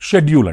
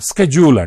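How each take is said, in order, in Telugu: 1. ఈ పదం sh శబ్దంతో మొదలవుతుంది. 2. ఈ పదం sk శబ్దంతో మొదలవుతుంది. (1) "బ్రిటిష్ ఇంగ్లీష్లో షెడ్యూల్ అంటారు" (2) "అమెరికన్ ఇంగ్లీష్లో స్కెడ్యూల్ అంటారు"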